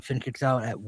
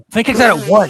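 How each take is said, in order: First: Said in the usual way. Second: Louder, higher call on out at one; excited. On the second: Acted. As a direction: call it like a shocking kickout. Calling a match finish.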